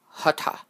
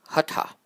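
No difference in how they are said.

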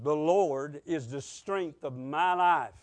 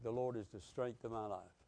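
First: It is said with lively enthusiasm. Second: It is said flatly, without much enthusiasm.

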